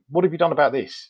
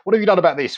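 First: It is said in a calm voice. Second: It is said in an angry voice.

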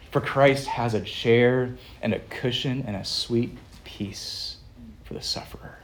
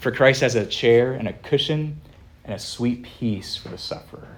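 First: It is spoken in the speaker's ordinary accent. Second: It is spoken in a put-on Scottish accent. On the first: "Again, in English" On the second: "here comes a really bad Scottish accent"

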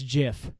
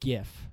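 First: The word begins with a J sound. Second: The word begins with a hard G sound. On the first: This is a peanut butter brand. The speaker calls it wrong. "It's peanut butter" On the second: This is the animated image format. The speaker calls it right. "It's GIF, right?"

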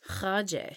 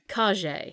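First: The name starts with a throaty kh sound. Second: The name starts with a plain k sound. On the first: "you're good" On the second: "I hedged"

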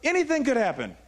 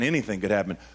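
First: It is said in an excited, eager tone. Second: It is said in a worried, fearful tone. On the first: Being in the unknown feels like an adventure. "Or anything could happen, right?" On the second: Being in the unknown feels threatening. "the only thing I shifted was tone"

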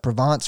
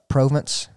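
First: It is said with the standard pronunciation. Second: It is said with a Southern American pronunciation. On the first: "I guess is how you say it" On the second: "for a southern boy, I would say Provence"

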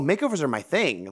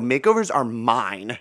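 First: It sounds casually confident and relaxed. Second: It sounds possessive and territorial.

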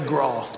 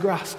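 First: The vowel is long, as in Essex speech. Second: The vowel is short, as in Yorkshire speech.

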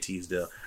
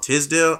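First: The first syllable sounds like 'tease'. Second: The first syllable sounds like 'tiz'. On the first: This is how the speaker says the name. "I say Teasdale" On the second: Someone else says the name this way.

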